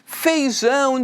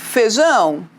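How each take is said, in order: First: The first syllable has the full diphthong ei. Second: The first syllable has a plain e sound. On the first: This is how the word is written. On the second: This is how people say it in everyday speech.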